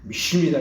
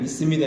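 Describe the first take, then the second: First: It imitates Pastor Cho's distinctive pronunciation. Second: It is said in a plain, ordinary voice.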